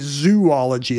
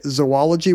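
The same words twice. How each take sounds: First: The first syllable sounds like the word zoo. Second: The first vowel is reduced to a schwa. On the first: "That would be the study of zoos" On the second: "with a schwa"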